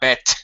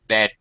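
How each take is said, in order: First: The word ends with a voiceless t sound. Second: The word ends with a voiced d sound. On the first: The speaker calls it wrong. "No, not bet" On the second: The speaker calls it right. "Bed. Duh"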